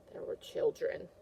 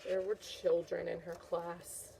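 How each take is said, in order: First: Spooky hushed whisper. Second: Said in the usual way. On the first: Acted. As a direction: whisper like a scary secret. Teacher repeats dramatically.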